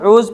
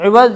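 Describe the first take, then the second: First: The word begins with a long 'oo' sound. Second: The word begins with a short 'i' sound. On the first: The speaker calls it wrong. "ऊज़ नहीं पढ़ेंगे" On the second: The speaker calls it right. "बल्कि इवज़ पढ़ेंगे"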